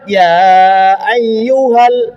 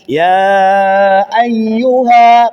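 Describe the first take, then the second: First: The final vowel is short and joins the next word. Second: The final vowel is held long before a stop. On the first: The reader continues into the next word. "kalau lanjut" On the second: The reader stops after this word. "panjang kan? Kalau berhenti"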